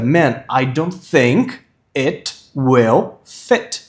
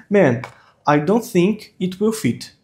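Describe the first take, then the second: First: Very slow, word by word, "think it will fit" as "thenk et wel fet"; slow model with every i in "think it will fit" toward ê; corrected pronunciation. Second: "think it will fit" with every i as ee; wrong pronunciation. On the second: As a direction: say "think it will fit" like "theenk eet weel feet". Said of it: "Tá errado, pô". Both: Shown as a demonstration.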